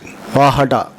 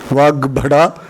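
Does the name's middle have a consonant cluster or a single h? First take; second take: single h; cluster. First: The middle is a single soft h sound. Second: The middle has a heavy g-bh consonant cluster. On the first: This is the form used in the Kerala tradition. "they pronounce it as Vahada, following the Jain tradition" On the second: This is the standard Sanskrit form. "they don't use the Guru Aksharas"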